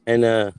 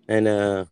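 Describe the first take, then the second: No difference in how they are said.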